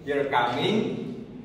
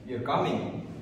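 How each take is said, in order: First: The pitch rises at the end. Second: The pitch falls at the end. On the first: It is a question. "rising intonation that indicates a question" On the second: It is a statement. "falling intonation signals a statement"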